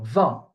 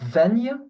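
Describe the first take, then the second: First: The word ends on a nasal vowel, no consonant. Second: The word ends with a 'ny' consonant sound. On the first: The speaker calls it right. "basically the G and the T are silent" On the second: The speaker calls it wrong. "it's not vingt because it's not G N"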